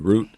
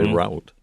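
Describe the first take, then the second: First: It uses the East Coast pronunciation of route. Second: It uses the Midwestern or Californian pronunciation of route. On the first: "I'm from the East Coast. We all say route" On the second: "When I meet people from the Midwest or California, they say route"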